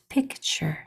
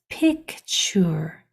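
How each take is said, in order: First: The word is said quickly, in normal speech. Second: The word is said slowly, sounds blended carefully. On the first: "When we say it fast" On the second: "When you combine those sounds"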